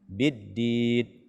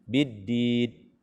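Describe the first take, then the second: First: The final n is cut off abruptly. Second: The same.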